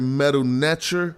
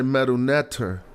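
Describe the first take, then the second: First: The last word has a 'ch' sound in the middle. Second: The last word has a plain 't' sound in the middle. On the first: This is the older form of the word. "It started as Metal Netcher when this T was pronounced as a T C H sound" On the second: This is the later form of the word. "It was just used as a T"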